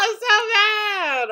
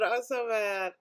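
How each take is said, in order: First: High loud drawn-out tantrum cry, slowed; hammed-up crying shout; mock furious wail. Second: Said in the usual way. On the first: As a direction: wail it like a kid losing it. Acting out an angry meme.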